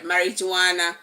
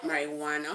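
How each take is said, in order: First: The J is pronounced as a J sound. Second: The J is silent, not said as J. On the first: This is how it is said locally. The speaker calls it wrong. "That's what we call it here in Nigeria" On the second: This is how it is said in America. The speaker calls it right. "the J is silence"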